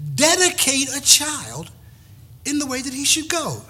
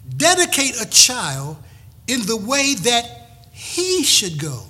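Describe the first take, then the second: First: The sentence is said in a plain, even voice. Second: The sentence is said with strong, forceful emphasis.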